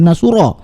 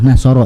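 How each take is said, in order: First: The middle syllable has the vowel u. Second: The middle syllable has the vowel a. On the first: The speaker calls it wrong. "jangan diganti menjadi Nasuro" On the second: The speaker calls it right. "Kalau dari sananya fathah ya fathah Nasoro"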